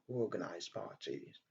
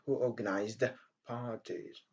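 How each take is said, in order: First: The d sound of organized is dropped. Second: The d sound of organized is pronounced. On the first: The speaker calls it right. "on dit tout simplement" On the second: The speaker calls it wrong. "au lieu de dire"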